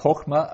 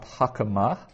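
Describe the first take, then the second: First: The first vowel is a short o. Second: The first vowel is an a sound. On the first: The speaker calls it right. "So that's hokma" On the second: The speaker calls it wrong. "and not hakama"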